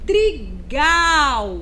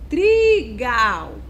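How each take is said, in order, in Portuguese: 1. A tônica está na última sílaba. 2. A tônica está na primeira sílaba. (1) "Então a sílaba tônica é a sílaba, é a última sílaba, é o gal" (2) "Se eu fosse fazer o contrário, ... não tem sentido"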